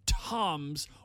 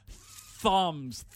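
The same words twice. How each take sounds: First: The word begins with a hard T sound. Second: The word begins with a soft th sound.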